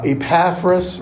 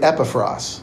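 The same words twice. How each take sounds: First: Epaphras said as ih-PAF-ruhs; English mispronunciation. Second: Epaphras said as EP-uh-frahs; Greek pronunciation. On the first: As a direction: stress the second syllable of Epaphras. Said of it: "so we mispronounce". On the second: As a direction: stress the first syllable of Epaphras. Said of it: "In Greek, that's really". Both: Shown as a demonstration.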